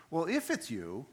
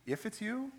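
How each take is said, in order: First: Said in the usual way. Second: High, questioning repeat; mock disbelief, pitched up at the end; incredulous echo. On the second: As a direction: throw the words back as a doubting question. Incredulous echo of Peter's words.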